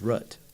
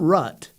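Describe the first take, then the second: First: The vowel is long, as in boot. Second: The vowel is short, as in cut. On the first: The speaker calls it right. "That's how I say it" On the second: The speaker calls it wrong. "It's not rut. That's different"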